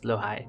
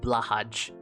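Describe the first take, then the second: First: It is pronounced the Swedish way. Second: It is pronounced the English way. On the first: The speaker calls it right. "that is the Swedish way to pronounce blowhigh" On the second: The speaker calls it wrong. "if you want to rage bait people who know how to pronounce it"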